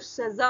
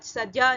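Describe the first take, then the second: First: The middle consonant is a buzzing z sound. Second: The middle consonant is a j sound. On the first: The speaker calls it right. "जा के नीचे नुक्ता लगा है तो सजा होगा" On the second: The speaker calls it wrong. "सजा नहीं होगा, जा नहीं बोलना है"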